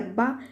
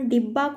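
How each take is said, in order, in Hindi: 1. पहला स्वर 'a' की आवाज़ है। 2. पहला स्वर 'i' की आवाज़ है।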